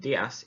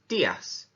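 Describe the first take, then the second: First: The first syllable is only weakly stressed. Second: The first syllable is strongly stressed. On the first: The speaker calls it wrong. "rather than saying" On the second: The speaker calls it right. "we really have to stress that accent"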